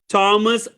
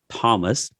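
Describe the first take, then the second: First: The name begins with a plain 't' sound. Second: The name begins with a 'th' sound. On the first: The speaker calls it right. "I'm going to say it correctly" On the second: The speaker calls it wrong. "my name is not Thomas"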